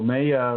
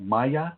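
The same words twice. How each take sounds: First: The first syllable sounds like 'may'. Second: The first syllable sounds like 'my'. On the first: The speaker calls it wrong. "like in mayonnaise?" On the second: The speaker calls it right. "you might be talking about Maya"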